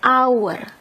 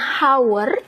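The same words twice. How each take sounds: First: It starts directly with a vowel sound. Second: It starts with an audible h sound. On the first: The speaker calls it right. "tapi kita bacanya hour ... kedengarannya kan A" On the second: The speaker calls it wrong. "kita bacanya bukan hour"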